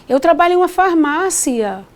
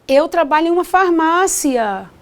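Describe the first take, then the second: No difference in how they are said.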